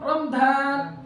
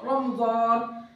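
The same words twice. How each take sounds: First: The middle consonant is a plain d sound. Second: The middle consonant is the emphatic Arabic ḍ. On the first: "باللغة الإنجليزية ماذا نقول؟" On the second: "نريد أن نقول رمضان بالضاد"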